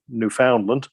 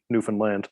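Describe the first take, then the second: First: The stress falls before the last syllable. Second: The stress is on the last syllable. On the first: The speaker calls it wrong. "the Americans tend to pr- uh, mispronounce it saying Newfoundland" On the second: The speaker calls it right. "skip over the found and say Newfoundland and put the emphasis on land"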